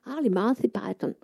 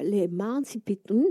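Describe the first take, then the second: First: "les Monty Python" softly in English, Monty like "mansi", Python "paraton"; Sebald's English pronunciation. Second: "les Monty Python" said slowly in French, Python like "pitu"; French way of saying it. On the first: Sebald gently corrects her English by repeating the band name. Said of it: "c'est exactement la même chose". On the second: She repeats the band name for Sebald, slowly in French. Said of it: "vous avez l'impression que vous avez dit". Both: Retold or imitated.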